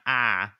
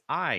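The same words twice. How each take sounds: First: The word is said in a hillbilly accent. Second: The word is said in a standard accent. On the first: The speaker calls it wrong. "not I" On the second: The speaker calls it right. "it's I"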